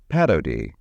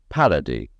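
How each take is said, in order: First: Unstressed vowels keep a trace of full quality. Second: Unstressed vowels are reduced to one neutral sound. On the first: The speaker calls it right. "the speaker with good articulation says" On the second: The speaker calls it wrong. "the slovenly speaker uses a single sound for all vowels in unaccented syllables"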